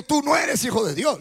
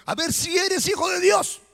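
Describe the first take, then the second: First: Said in the usual way. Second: Higher-pitched, doubting challenge; duda desafiante. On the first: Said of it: "Mire que no le dijo". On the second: Shown as a demonstration. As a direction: dare him to prove it, voice lifted. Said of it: "Le dijo". (reto con duda, en tono agudo)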